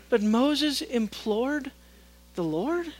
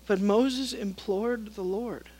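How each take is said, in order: First: Incredulous. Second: Said in the usual way. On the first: Shown as a demonstration. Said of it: "When you hear God in that tone". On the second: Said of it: "would be apt to say".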